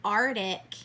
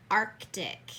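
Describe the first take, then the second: First: Arctic without the middle C, ar-tik; wrong Arctic. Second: Arctic with the C sounded, ark-tik; correct Arctic. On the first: Teacher showing the common mistake, Arctic said ar-tik. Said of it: "A lot of people will confuse". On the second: Teacher giving the right form, Arctic said ark-tik. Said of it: "it should be Arctic". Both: Shown as a demonstration.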